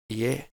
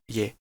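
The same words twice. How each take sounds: First: The two vowels are said as separate sounds. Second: The two vowels glide together into one sound. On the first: The speaker calls it right. "is pronounced as ye" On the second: The speaker calls it wrong. "not ye"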